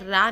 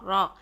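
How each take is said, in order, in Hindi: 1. स्वर पतला और खुला है, जैसे 'ah'। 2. स्वर भारी और गोल है, जैसे 'aw'। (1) "रा नहीं पढ़ना" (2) "रॉ रॉ रॉ यूं पढ़ना है"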